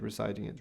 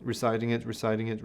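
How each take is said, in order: First: Reciting it drops to barely audible; nearly silent. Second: Fading recitation. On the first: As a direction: let it fade almost to nothing. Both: Shown as a demonstration. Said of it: "she continues, "Softer, softer".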